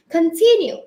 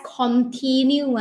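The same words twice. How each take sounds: First: "continue" with a reduced first vowel, kun-TIN-yoo; correct continue. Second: "continue" with a full o, KON-tee-new; mispronounced continue. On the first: Teacher correcting for the class, "continue" as kun-tin-yoo. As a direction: say "continue" with a light "kun" and short i. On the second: Teacher showing class what to avoid, "continue" as kon-tee-new. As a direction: say "continue" with a clear "kon" at the start. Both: Shown as a demonstration. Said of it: "We don't pronounce it as".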